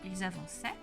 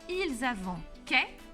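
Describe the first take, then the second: First: The middle consonant sounds like s. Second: The middle consonant sounds like k. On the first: The speaker calls it right. "pour obtenir le bon son" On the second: The speaker calls it wrong. "ah là non par contre"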